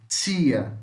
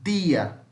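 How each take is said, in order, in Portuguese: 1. O t soa como um som de 'ch'. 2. O t soa como um t normal. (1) "tia tem esse som. Tia, ó, vejam. Tss, tss" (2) "No Nordeste brasileiro, vai falar assim"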